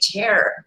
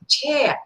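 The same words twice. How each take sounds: First: The final R sound is clearly pronounced. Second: The final R sound is left silent. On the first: This is how Americans say it. "they say chair" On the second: This is how British speakers say it. "they don't say chair"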